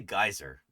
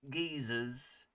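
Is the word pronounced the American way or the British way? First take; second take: American; British. First: The word is said with an American pronunciation. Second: The word is said with a British pronunciation. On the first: "How's it pronounced in the U S? We, we say geyser" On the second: "I love the the English English pronunciation of geysers"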